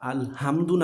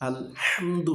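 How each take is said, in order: First: The h is a plain, light breathy sound. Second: The h is tight, made in mid-throat. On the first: The speaker calls it wrong. "না" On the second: The speaker calls it right. "হবে"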